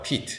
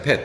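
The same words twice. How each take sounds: First: 'peat' as Pete, with a long 이; letter-name E. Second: 'pet' with a short 에; short stressed e. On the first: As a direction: say 'peat' with E as in the alphabet. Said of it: "알파벳 발음대로". ('peat'을 피트, 긴 이 소리로) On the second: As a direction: say 'pet' with a simple open e. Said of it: "A로 발음돼요". ('pet'을 짧은 에 소리로) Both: Shown as a demonstration.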